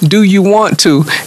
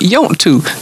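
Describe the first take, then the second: First: Every word is pronounced separately and in full. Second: The words are squeezed together into two syllables. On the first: This is the standard way of saying it. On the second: This is the local Kentucky way of saying it.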